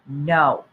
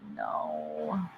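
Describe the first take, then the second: First: It is said firmly, with conviction. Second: It is said sadly. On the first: "say no with conviction" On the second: "say it with sadness"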